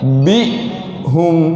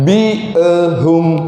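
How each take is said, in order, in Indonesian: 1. Hamzah ditahan tanpa vokal tambahan. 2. Ada vokal pantulan tambahan setelah hamzah. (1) "tapi bi'hum. Dua bunyi saja" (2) "Bukan bi'hum. Ha, bukan tiga bunyi"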